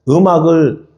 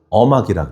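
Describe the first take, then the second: First: The word begins with eum, as eumak. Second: The word begins with eo, as eomak.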